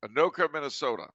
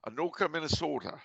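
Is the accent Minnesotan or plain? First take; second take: plain; Minnesotan. First: It is said in a plain, ordinary accent. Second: It is said in a Minnesotan accent.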